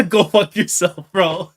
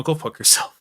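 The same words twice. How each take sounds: First: Louder, higher curse through a real laugh. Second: Said in the usual way. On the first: Real, not acted. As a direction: laugh it out at the villain, half broken. Cursing the villain character.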